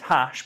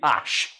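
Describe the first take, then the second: First: The initial h sound is pronounced. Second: The initial h sound is dropped. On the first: "And it's hash, but you don't pronounce that" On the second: "you do not pronounce that fucking H"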